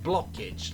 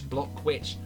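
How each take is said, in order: First: The W sound is dropped from the name. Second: The W sound is pronounced in the name. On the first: "I'm gonna go with Blockage, like you like something is blocked" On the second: "you never know whether the you pronounce the W or not"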